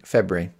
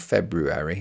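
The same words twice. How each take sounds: First: The word is said in its casual everyday form. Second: The word is said in its full careful form. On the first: The speaker calls it right. "you have to say it wrong, and you just say it as February" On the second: The speaker calls it wrong. "If you say it correctly, it sounds so wrong"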